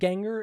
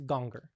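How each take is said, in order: First: The first vowel is a flat, unrounded 'a'. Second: The first vowel is a rounded 'o'-like sound. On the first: The speaker calls it wrong. "instead of ganger" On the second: The speaker calls it right. "it's gonger"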